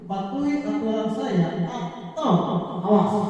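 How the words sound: It is said in a harsh, stern tone.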